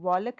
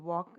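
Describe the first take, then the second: First: An l sound is pronounced before the k. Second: No l sound is heard before the k. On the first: The speaker calls it wrong. "हम वॉलक नहीं बोल रहे" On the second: The speaker calls it right. "ल नहीं बोल रहे"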